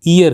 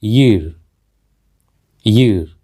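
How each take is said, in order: First: ईयर begun on a bare "ee", like "ear"; common mispronunciation. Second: ईयर with a clear opening Y glide; correct pronunciation. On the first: Teacher showing a common mistake, mispronounced like "ear". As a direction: say ईयर as ee-yar, no opening y. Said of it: "जो कि कहना बिल्कुल गलत है". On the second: Teacher modelling the word, correct pronunciation with initial Y. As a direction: say ईयर as "yeer", starting on y. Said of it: "इसका सही उच्चारण है". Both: Shown as a demonstration.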